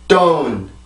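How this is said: It is said forcefully, with a strong stressed onset. "영어입니다"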